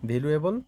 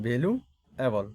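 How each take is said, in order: First: Said in the usual way. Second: Slow "valuable" in two parts, "value", pause, "এবল"; split in two. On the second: Shown as a demonstration. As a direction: break "valuable" slowly in the middle to count its parts. ("Valuable" ধীরে, মাঝে থেমে দুই ভাগে) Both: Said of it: "দুইটা syllable".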